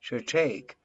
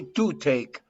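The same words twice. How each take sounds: First: The vowel in to is reduced and weak. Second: The vowel in to is full and clear. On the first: The speaker calls it right. "you say to take" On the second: The speaker calls it wrong. "You don't say to take"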